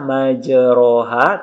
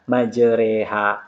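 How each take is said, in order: First: The vowel after the r is an open 'a'. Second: The vowel after the r is tilted to 'e'. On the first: The speaker calls it wrong. "Tidak dibaca majroha" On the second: The speaker calls it right. "dibaca majreha"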